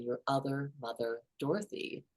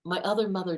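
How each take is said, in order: First: "your other mother" softer, leaning on "other"; savoring the phrasing. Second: Said in the usual way. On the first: Shown as a demonstration. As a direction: linger on "other" in "your other mother, Dorothy" to show the odd phrasing. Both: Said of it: "what interesting phrasing".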